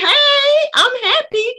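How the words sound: It sounds lively and enthusiastic.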